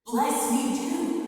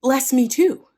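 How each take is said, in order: First: High, slow, drawn-out mock wail; hammed-up, lingering tearful whine. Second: High, loud mock-tearful cry; hammed-up bitter plea. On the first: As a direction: stretch the plea into a softer sob. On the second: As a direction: burst out begging through pretend tears. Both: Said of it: "he burst out in tears bitterly".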